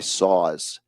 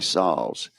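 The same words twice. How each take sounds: First: It is said in a northern US accent. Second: It is said in a Mississippi accent.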